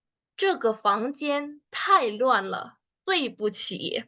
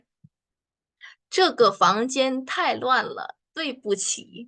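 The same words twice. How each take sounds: First: Slow, even demo read; slow clear model sentence. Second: Stretched syllable by syllable, very slow; very slow drill read. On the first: Teacher models the apology sentence slowly for students. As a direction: say it slowly for learners. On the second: Teacher repeats it very slowly so students can copy. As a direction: drag each syllable out for learners. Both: Shown as a demonstration.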